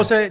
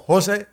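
First: "José" higher, weight on the final E; José with accented E. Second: "José" as HO-se, final E unstressed; José without accent. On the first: Guest explains his name to host, José stressed on the E. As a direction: stress the last syllable of "José", ho-SÉ. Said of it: "lleva tilde en la E". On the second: Guest explains his name to host, José stressed on the first syllable. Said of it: "no lleva tilde". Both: Shown as a demonstration.

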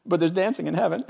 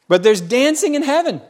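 First: Soft aside. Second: Preached out. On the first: Quiet aside, then loud repeat. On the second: Repeats line as loud proclamation. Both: Acted.

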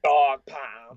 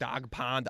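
First: "pound" said as the usual word with an OW vowel; low, loud "pound", imitating the proper word; correct pronunciation. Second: "pound" flattened to sound like "pond"; Boston-style "pound" heard as "pond"; mispronounced "pound". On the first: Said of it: "I've been saying that wrong". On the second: Retold or imitated. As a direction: drop the glide in "pound" so it comes out "pond". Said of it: "they think I say dog po-, pond instead of pound".

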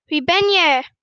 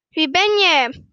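First: Loud, curious shout; curious call. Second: Loud answering shout; echoed call. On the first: Boy to the unknown voice, curious loud call. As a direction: call the question out into the distance. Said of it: "Vol nieuwsgierigheid roept hij". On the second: Mountain voice answers the boy, echoed loud call. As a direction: call it back just as it came. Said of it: "hij krijgt als antwoord". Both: A narrator's reading.

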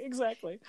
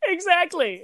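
First: Said in the usual way. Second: Laughing. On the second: Real, not acted. Laughing agreement.

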